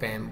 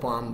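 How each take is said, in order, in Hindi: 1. स्वर छोटी 'a' ध्वनि है, जैसे cat में। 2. स्वर लंबी खुली 'aa' ध्वनि है। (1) "इंग्लिश में हम इसको पैम बोलते हैं" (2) "उर्दू में हम इसको पाम बोलते हैं"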